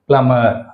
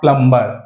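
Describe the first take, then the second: First: The b sound is silent. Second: The b sound is pronounced. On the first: The speaker calls it right. "బి అనేది silent అవుతుంది" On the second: The speaker calls it wrong. "ప్లంబర్ అనకూడదు"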